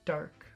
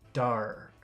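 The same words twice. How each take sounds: First: The word is said plainly, without extra emphasis. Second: The word is said with strong, energetic emphasis. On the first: "that's normal"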